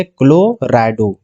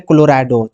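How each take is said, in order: First: Slow dictation. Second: Said in the usual way. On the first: Shown as a demonstration. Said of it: "तो यहाँ पे क्या लिखेंगे". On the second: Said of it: "CL को हम लोग क्या बोलते हैं".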